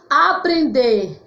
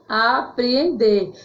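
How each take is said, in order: First: Aprender said slowly, a single E; slow clear demo word. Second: Apreender said slowly with two separate E sounds, a-pre-en-der; both E sounds said. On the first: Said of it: "que vem do verbo aprender". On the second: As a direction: split the double E in Apreender clearly. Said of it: "com dois E". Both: Shown as a demonstration.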